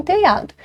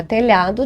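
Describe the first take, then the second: First: "telhado" dito como "teiado", sem LH; pronúncia coloquial. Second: Said in the usual way. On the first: Shown as a demonstration. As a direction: troque o LH de "telhado" por I. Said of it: "dizem telhado". ("telhado" na fala popular, soando "teiado") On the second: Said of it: "Para telhado, dizem telhado".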